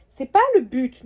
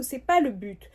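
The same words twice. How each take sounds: First: Firm repeat. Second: Said in the usual way. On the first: Real, not acted. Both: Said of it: "je suis un peu morose".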